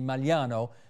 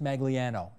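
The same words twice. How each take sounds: First: The name has its Italian pronunciation. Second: The name has an anglicized pronunciation. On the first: This is the original, proper pronunciation. "I do know how to properly pronounce your last name, which should be" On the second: This is how the bearer's family prefers it. "but I get that you want it pronounced"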